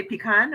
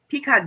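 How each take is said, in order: First: Pecan said puh-KAHN, with a short first vowel; pecan with a quick, weak "puh" first; puh-KAHN pronunciation. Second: Pecan said PEE-kahn, with a long ee; pecan with first syllable like "pea"; PEE-kahn pronunciation. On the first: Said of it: "or do you say pecan". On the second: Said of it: "I say pecan". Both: Shown as a demonstration.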